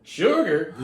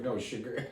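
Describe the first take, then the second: First: "Sugar?" asked high and loud with a laugh, rising surprise; loud disbelieving "Sugar?"; questioning sugar. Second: Soft deadpan "No, sugar."; flat correction. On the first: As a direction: say "Sugar?" loud and incredulous, chuckling. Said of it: "Josh Brolin's like". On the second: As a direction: correct him quietly with "No, sugar.". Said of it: "'Cause I say it like the". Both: Retold or imitated.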